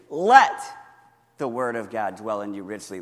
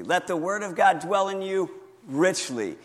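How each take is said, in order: First: Leaning hard on "Let" to show shifting emphasis; stress on Let. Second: "God" given the weight with a falling tune; moving the emphasis onto "God"; stress on God. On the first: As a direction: hit "Let" hard, then let the verse settle. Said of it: "Emphasize different words as you repeat it". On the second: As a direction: lean into "God" this time. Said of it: "emphasize different words". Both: Shown as a demonstration.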